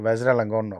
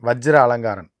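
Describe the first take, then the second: First: The name ends with a 'korn' sound. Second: The name ends with a 'karan' sound. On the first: This is how the name is said in the local Thai language. "அப்படின்வாங்க" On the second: This is the original Tamil form of the name. "அதுதான் அவரோட பேரு"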